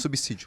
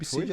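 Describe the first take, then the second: First: The middle consonant sounds like an S. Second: The middle consonant sounds like a Z. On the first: The speaker calls it right. "o som de S é, é dois S. É, não é som de Z" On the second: The speaker calls it wrong. "Eu falei subsídio, aí veio a galera... corrigir o erro de português"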